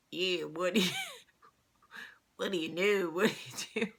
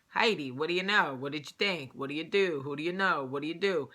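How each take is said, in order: First: Imitating a failed Italian Jersey accent; badly attempted Jersey accent. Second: Mimicked Jersey Italian patter; Italian Jersey accent. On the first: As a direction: botch an Italian Jersey accent, as a clumsy mimic. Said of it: "tried to do the Italian, like, Jersey accent". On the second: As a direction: talk like an Italian cousin from Jersey.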